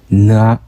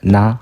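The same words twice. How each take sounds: First: The syllable is heavy with strong nasal resonance. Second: The syllable is light with little nasal resonance. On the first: The speaker calls it right. "좀 무겁게 나 이렇게" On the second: The speaker calls it wrong. "그냥 가볍게 나"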